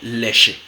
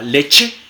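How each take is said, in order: First: The ch is a smooth sh sound. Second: The ch is a stopped ch sound. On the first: "simplemente una fricativa alveolar sorda, sh" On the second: "africada postalveolar sorda, como en ch"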